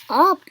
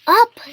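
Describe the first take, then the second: First: Loud, questioning echo; asked. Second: High, loud command; shouted. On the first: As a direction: echo the command uncertainly. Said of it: "Gerald asked as he went down". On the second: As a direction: call out the dance move. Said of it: "shouted Piggy". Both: A narrator's reading.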